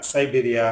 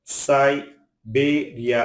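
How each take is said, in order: First: Said in the usual way. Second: "Siberia" in long, separate syllables; split syllables. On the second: Shown as a demonstration. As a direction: pause between the syllables of "Siberia". Word split by syllable, then whole.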